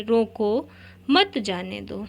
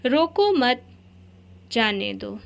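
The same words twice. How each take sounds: First: "रोको" alone with a rising tune, a pause, then "मत, जाने दो" together; "रोको" के बाद विराम, फिर "मत जाने दो"; pause after रोको. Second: "रोको मत" पर ज़ोर, फिर रुककर "जाने दो"; pause after मत. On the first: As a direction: split off "रोको", then run "मत जाने दो" as one phrase. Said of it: "इसी को हम बोलेंगे". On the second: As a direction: keep "रोको मत" together, break, then "जाने दो". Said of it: "इसके प्रयोग से बात का अर्थ भी बदल जाता है". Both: Shown as a demonstration.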